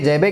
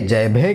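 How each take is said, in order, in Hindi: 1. बीच का व्यंजन सादा 'ब' है। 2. बीच का व्यंजन महाप्राण 'भ' है।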